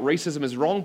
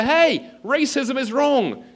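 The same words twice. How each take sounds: First: Mild, raised-voice retold shout. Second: Very high, loud drawn-out shout; calling out. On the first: Student shouts out at racial abuse, mildly retold shout. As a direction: report a shout, only slightly louder. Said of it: "you shout out". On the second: Acted. Student shouting to the crowds on campus, calling out. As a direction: holler a slogan over a crowd. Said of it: "you call out to the crowds".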